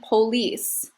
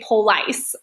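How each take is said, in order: First: The word ends with an 'ease' sound. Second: The word ends with an 'ice' sound. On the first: The speaker calls it right. "the way we say it is ease" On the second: The speaker calls it wrong. "We don't say police. That would just sound weird"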